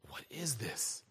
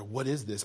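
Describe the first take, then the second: First: Low, very soft whisper; hushed whisper. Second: Said in the usual way. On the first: Acted. Preacher voices the healed man asking what happened, hushed whisper. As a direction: whisper it, as the man freed of the spirit.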